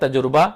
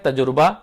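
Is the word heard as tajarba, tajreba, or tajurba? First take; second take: tajurba; tajurba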